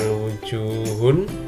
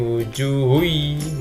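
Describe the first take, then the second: First: The final n sound is pronounced clearly. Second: The final n merges into a nasalized y sound. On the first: The speaker calls it wrong. "bukan wujuhun" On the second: The speaker calls it right. "tapi wujuhui, masuk ke dalam ya"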